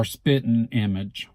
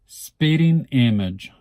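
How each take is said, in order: First: Spitting as "spittin'"; dropped-g pronunciation. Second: Spitting with a full "ing" ending, drawn out; full -ing pronunciation. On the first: Speaker showing the casual form, spitting as spittin'. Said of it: "Some people would say S P I T T I N". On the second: Speaker showing the careful form, Spitting with full -ing. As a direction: say Spitting slowly as "SPIT-ting". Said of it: "I don't think I would say". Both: Shown as a demonstration.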